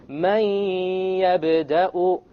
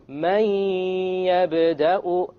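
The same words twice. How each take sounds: No difference in how they are said.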